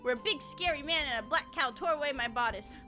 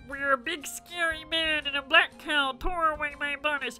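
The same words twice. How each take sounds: First: It is read in her normal voice. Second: It is read in a Kermit the Frog voice.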